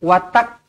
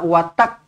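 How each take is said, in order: The two takes are said the same way.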